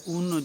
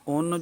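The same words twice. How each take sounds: First: The vowel is a pure, clear u sound. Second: The vowel is a mixed, o-like sound. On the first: "मारूफ है" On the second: "मजहूल है"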